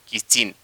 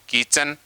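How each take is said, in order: First: The second syllable is said like 'chin'. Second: The second syllable is said like 'chen'. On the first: The speaker calls it right. "लेकिन होता है किचिन" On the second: The speaker calls it wrong. "क्या बोलते हैं"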